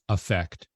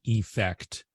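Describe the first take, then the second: First: The first vowel is reduced to a schwa. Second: The first vowel is a full, clear vowel. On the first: "just having that schwa as that first uh, sound" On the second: "I'm not saying effect for the noun"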